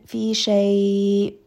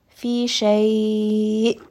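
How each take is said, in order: First: Fi shay with shay trailing long, no stop; drawn-out vowel. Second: Fi shay with shay cut off sharply in the throat; abrupt hamza stop. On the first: Teacher showing the wrong way, stretched out. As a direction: let the vowel run on like a long med. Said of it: "Now it just kind of sounds like a med". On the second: Teacher showing the correct abrupt stop on hamza. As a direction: stop the hamza dead, no lengthening. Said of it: "I'm abruptly stopping on that hamza". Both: Shown as a demonstration.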